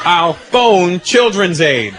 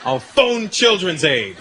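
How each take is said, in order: First: Very slow, deliberate "phone"; understated brave kid; kid's threat again. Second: Slow, deliberate warning; a hint of a brave kid's threat. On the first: Retold or imitated. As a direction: lean on the bluff slowly. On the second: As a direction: spell out the bluff slowly. Kid threatening dad.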